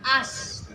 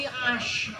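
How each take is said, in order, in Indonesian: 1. Konsonannya bunyi s biasa. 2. Konsonannya bunyi sh. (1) "jangan as" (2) "tapi ash ... shin besar"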